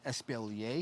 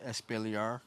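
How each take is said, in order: First: The word is said in a fancier-sounding way. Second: The word is said plainly, following its spelling. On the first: The speaker calls it right. "it's actually Espalier. It sounds a little bit more fancy" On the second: The speaker calls it wrong. "a lot of people pronounce it Espalier because the way it's spelled"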